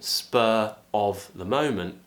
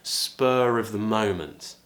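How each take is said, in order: First: Spur and of are separate, with no R sound. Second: An R sound links spur smoothly into of. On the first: "instead of being spur of the moment" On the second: "we can talk a bit faster, connect our speech"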